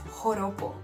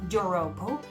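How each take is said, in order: First: The word begins with an H sound. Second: The word begins with a J sound. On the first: The speaker calls it right. "that J in there is pronounced as an H" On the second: The speaker calls it wrong. "it's not joropo"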